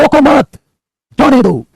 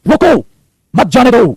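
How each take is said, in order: First: High, forceful "रोको मत", pause, then "जाने दो"; pause after मत. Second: High, punched "रुको", pause, then "मत जाने दो"; pause after रुको. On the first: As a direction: keep "रोको मत" together, break before "जाने दो". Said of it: "आप कहां रुकते हैं वो रुकना ही कोमा". ("रोको मत" पर ठहराव, फिर "जाने दो") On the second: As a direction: break right after "रुको", before "मत जाने दो". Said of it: "बोलते टाइम रुकना ही कोमा होता है". ("रुको" पर ठहराव, फिर "मत जाने दो") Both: Shown as a demonstration.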